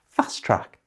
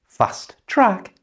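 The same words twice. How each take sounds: First: The first T sound is left out. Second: Both T sounds are pronounced.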